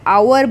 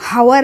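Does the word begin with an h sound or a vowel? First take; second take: vowel; h sound. First: The word begins with a vowel, no h. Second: The word begins with an h sound. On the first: The speaker calls it right. "आवर बोलते हैं हम" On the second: The speaker calls it wrong. "हावर नहीं बोलते"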